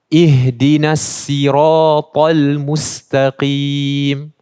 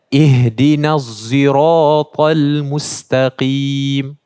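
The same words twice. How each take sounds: First: Sirata begins with a plain, light s sound. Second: Sirata begins with a sound close to z. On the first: "saya baca tadi dengan sin" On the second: "bunyi dia lebih dekat kepada huruf zai"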